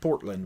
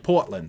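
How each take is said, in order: First: It is said without a Maine accent. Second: It is said with a Maine accent. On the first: The city in Oregon is meant. "instead of Portland, which would be Oregon" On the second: The city in Maine is meant. "when it's Maine, you say Portland"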